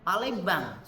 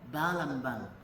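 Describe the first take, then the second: First: The word starts with a p sound. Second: The word starts with a b sound. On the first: "suruh ngomong Palembang" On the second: "mesti ngomong Balambang"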